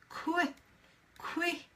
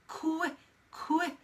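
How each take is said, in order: The two takes are said the same way.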